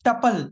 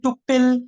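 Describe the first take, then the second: First: The first syllable has a short uh vowel. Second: It ends with a short pill sound. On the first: The speaker calls it right. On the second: The speaker calls it wrong.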